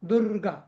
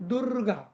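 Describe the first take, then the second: The two takes are said the same way.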